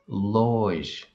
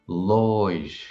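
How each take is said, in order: The two takes are said the same way.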